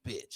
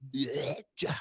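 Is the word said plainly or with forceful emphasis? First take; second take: plainly; forcefully. First: It is said plainly, without extra force. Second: It is said with a hard, forceful B.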